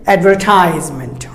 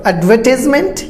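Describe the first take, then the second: First: Advertisement as ad-ver-TIES-ment; long "ties" in advertisement; American advertisement, falling; American pronunciation. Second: Advertisement as ad-VUH-tis-ment; short "tis" in advertisement, rising; British advertisement, stress on second syllable; British pronunciation. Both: Shown as a demonstration. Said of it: "and Americans advertisement".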